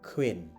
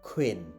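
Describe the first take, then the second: First: The first k sound has a strong puff of air. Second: The same.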